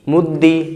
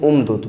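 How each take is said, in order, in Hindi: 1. दोहरा व्यंजन i स्वर पर खत्म होता है। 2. व्यंजन आपस में मिले नहीं हैं और अंत में कोई स्वर नहीं है। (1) "कसरा" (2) "बग़ैर इदगाम"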